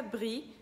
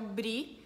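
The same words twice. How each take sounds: First: Brie with R scraped in the throat; French pronunciation. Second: Brie with a tapped R; Brazilian pronunciation. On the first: Teacher contrasts with Brazil, French pronunciation of brie. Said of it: "em francês fica brie". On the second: Teacher names the cheese heard in Brazil, Brazilian pronunciation of brie. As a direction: tap the R in brie as in Portuguese. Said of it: "que aqui eu ouço bastante". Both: Shown as a demonstration.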